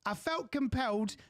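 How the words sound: It is said in a put-on British accent.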